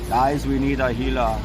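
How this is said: It is spoken in a heavy German-like accent. "What would Arnold Schwarzenegger say?"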